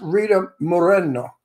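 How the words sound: The name is said with a Spanish pronunciation. The speaker calls it right. "That's how you say it in Spanish"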